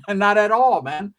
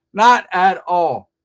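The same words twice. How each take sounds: First: Laughing dismissal with louder voice; a real laugh on the words. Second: Slow, loud, every word weighted; slow weighty repeat; slow emphasis. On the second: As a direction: drag it out, louder and slow. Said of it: "repeated slowly for emphasis". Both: Real, not acted.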